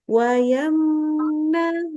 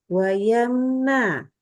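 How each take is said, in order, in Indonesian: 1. Mim dilepas dengan cepat tanpa dengung sengau. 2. Mim ditahan dengan dengung sengau yang panjang. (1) "jadi wayamna" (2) "ya tidak boleh ditahan"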